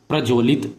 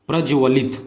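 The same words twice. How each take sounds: No difference in how they are said.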